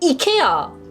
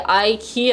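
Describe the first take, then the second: First: It begins with an 'ee' sound. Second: It begins with an 'eye' sound. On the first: This is the traditional way. "사투리 식으로 액센트를 넣어야 돼" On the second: This is the usual English way. "I know it's not the traditional way, but I think this is why English for English people"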